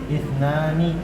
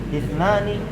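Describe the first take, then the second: The two takes are said the same way.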